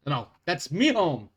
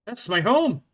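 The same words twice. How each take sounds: First: Scottish accent with "me" for "my"; Scottish dwarf brogue; Scottish accent, corrected. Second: Put-on Scottish accent. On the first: Shown as a demonstration. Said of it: "I'm trying to keep a consistent accent".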